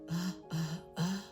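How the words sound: The voice is breathy and airy.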